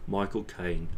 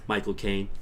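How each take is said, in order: First: Cockney-voiced British actor impression; Michael Caine. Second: Said in the usual way. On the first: Shown as a demonstration. Streamer shows his actor imitation, broad Cockney accent. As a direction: say the name with broad Cockney vowels. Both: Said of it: "biting off specific actors".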